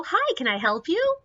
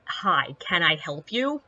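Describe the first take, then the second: First: High, chirpy customer-service "Hi, can I help you?"; high, bright and polite. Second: Low, flat "Hi, can I help you?" with no sweetness; lower, cool and unimpressed; flat firm. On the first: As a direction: sing it out sweetly to move him along. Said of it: "break off the story and go". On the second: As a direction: say it level to a man glaring at you. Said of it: "and I'm like". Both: Retold or imitated.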